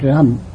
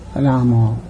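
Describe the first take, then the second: First: The name ends on the consonant m. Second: The name ends with an added vowel sound. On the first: The speaker calls it wrong. "Not Ram" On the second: The speaker calls it right. "That is the real pronunciation"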